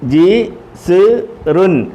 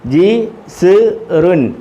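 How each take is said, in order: No difference in how they are said.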